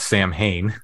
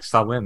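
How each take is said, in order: First: It is said as 'Sam-hane', spelling-style. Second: It is said as 'Sow-in', without the h. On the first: The speaker calls it wrong. "over here everyone just calls Sam Hain" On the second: The speaker calls it right. "Does everyone pronounce it correctly there?"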